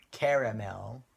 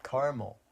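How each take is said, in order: First: "caramel" in three syllables, CARE-uh-mel; pronounced as spelled. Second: "caramel" in two syllables, CAR-mul; Californian pronunciation. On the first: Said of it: "I know, it's spelled". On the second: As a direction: say "caramel" as CAR-mul, middle vowel dropped. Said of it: "some things that Californians pronounce". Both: Shown as a demonstration.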